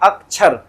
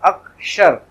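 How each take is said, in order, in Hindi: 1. बीच का व्यंजन 'chh' जैसा सुनाई देता है। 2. बीच का व्यंजन 'sh' जैसा सुनाई देता है। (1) "वहां पे इसको छर ही बोल देते हैं" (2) "अक्षर है"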